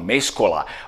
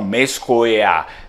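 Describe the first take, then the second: First: The word is said with an L sound. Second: The word is said without an L sound. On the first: Some speakers say it this way. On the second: Other speakers say it this way.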